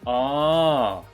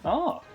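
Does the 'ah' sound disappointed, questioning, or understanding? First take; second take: disappointed; questioning. First: It sounds sad and disappointed. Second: It sounds surprised, like asking really.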